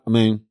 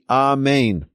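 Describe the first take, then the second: First: The word is slurred, with letters run together. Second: The word is clearly enunciated, every letter distinct. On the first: The speaker calls it wrong. "Not Amen" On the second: The speaker calls it right. "It should be Amen"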